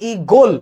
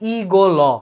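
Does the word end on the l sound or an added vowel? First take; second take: l sound; added vowel. First: The word stops right on the final l. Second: A vowel is added after the final l. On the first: The speaker calls it right. "ল ধ্বনিতেই থেমে যাচ্ছি" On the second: The speaker calls it wrong. "হসন্তটা না দিই তাহলে হয়ে যাবে ই গো ল"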